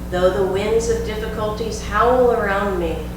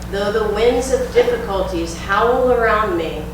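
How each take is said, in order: First: It is said in a normal speaking voice. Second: It is said in a strong, loud voice. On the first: It takes the words a little deeper inside. "On a regular speaking voice" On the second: It grabs the attention of the conscious mind. "in a strong voice"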